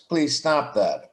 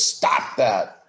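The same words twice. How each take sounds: First: Slower, gentler ask with please; polite request. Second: Blunt, short order without softening; just tell them to stop, firmly; flat firm stop that; curt command. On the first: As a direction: ask kindly, slowing down a bit. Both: Shown as a demonstration. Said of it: "tone of voice".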